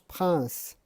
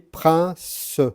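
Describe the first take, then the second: First: The final e is silent. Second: The final e is sounded as a syllable. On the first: It is said as in normal speech. The speaker calls it right. "quand on prononce, on prononce prince" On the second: It is read letter by letter as written. The speaker calls it wrong. "en syllabique classique, vous auriez prince"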